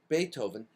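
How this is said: It is pronounced with an American accent. "Beethoven is how we say it in America"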